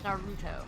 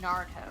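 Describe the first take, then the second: First: The middle vowel is a clear, full 'oo'. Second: The middle vowel is reduced, not a full 'oo'. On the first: The speaker calls it right. "I just have to enunciate the ooh for the U" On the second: The speaker calls it wrong. "I've been saying Naruto, and it's not"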